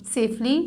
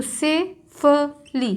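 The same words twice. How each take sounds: First: Said in the usual way. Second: Safely stretched very slowly, every sound clear; drawn out slowly. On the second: Shown as a demonstration. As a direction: dictate safely at a crawl. (बहुत धीरे खींचकर)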